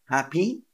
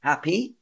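Both takes have the same delivery.

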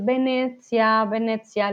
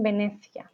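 First: Venecia said the Italian way, with a ts sound in the middle; Italian pronunciation. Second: Venecia with a Castilian lisped th sound; Spanish pronunciation. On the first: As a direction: Venecia pronounced like an Italian word. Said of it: "lo dicen todo en italiano". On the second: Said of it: "con el acento español". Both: Shown as a demonstration.

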